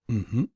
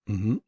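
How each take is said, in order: The two takes are said the same way.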